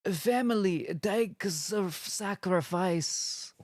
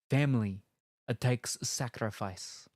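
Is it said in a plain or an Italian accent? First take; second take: Italian; plain. First: It is said in a put-on Italian accent. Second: It is said in the speaker's plain accent.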